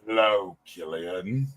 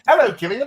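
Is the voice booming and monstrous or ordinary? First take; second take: booming; ordinary. First: It is said in a booming Pinhead voice. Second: It is said in Doug's ordinary speaking voice.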